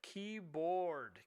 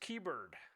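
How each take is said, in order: First: The second syllable sounds like board. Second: The second syllable sounds like bird. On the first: The speaker calls it right. "Try to get him to fix that keyboard, not keybird" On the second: The speaker calls it wrong. "As my son says"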